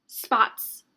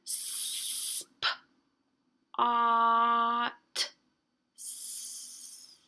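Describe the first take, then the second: First: "Spots" in one quick, loud burst; said fast. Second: Super slow. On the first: Teacher showing what is hard to hear, said fast. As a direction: rattle off "Spots" as a single fast word. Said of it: "I wasn't saying it fast". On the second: Teacher showing easier way to hear letters, super slow. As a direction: pull "spots" apart, long S at each end. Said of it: "That's saying it super slow". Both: Shown as a demonstration.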